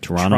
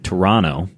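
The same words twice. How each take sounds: First: It is said the local Canadian way. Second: It is said in a plain American way.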